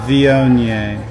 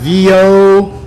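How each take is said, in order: First: All syllables are flat, with a bored tone. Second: One syllable is stressed, not said flat. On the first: The speaker calls it right. "You have to be really bored... just say vio nye" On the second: The speaker calls it wrong. "we don't stress any of the syllables... it's not vio, nye"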